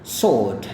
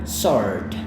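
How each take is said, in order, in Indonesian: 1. Huruf O yang panjang dibulatkan dengan kuat, gaya Britania. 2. Huruf O kurang dibulatkan, gaya Amerika. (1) "kalau mau British" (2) "untuk Amerika dia biasa, dia nggak terlalu kayak gitu"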